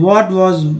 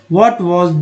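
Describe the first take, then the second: The two takes are said the same way.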